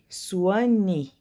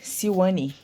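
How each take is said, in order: First: The name begins with a 'swa' sound. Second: The name begins with a 'sil' sound. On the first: The speaker calls it right. "a pronúncia é assim" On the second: The speaker calls it wrong. "não vou precisar falar o nome dela errado, porque eu tava falando é, Silwane"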